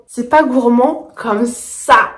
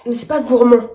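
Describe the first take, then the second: First: "pas" stretched out and stressed, the whole line at half speed; slow stressed repeat. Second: Said in the usual way. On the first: Shown as a demonstration. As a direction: spell it out slowly, leaning on "pas".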